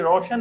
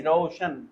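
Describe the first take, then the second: First: रोशन with a simple o in the first syllable, English style; रोशन as the wrong, English reading with plain o; English-style vowel. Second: रोशन with the first syllable opened into au, rau-shan; रोशन with an au glide before शन; Sanskrit-style vowel. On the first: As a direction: say रोशन quickly with an undivided o. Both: Shown as a demonstration. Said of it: "English में नहीं".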